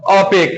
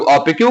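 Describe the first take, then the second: First: "ओपेक" cut off at the k; variant pronunciation. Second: "ओपेक्यू" with a final "kyoo"; variant pronunciation. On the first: Teacher contrasting two common forms, "ओपेक" ending in a plain k. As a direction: say "ओपेक" as o-PAKE, without a "yoo" ending. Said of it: "कुछ लोग ओपेक कहते हैं". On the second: Teacher contrasting two common forms, "ओपेक्यू" ending in "kyoo". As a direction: sound out "ओपेक्यू" with the extra "yoo" at the end. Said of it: "कुछ लोग ओपेक्यू कहते हैं". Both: Shown as a demonstration.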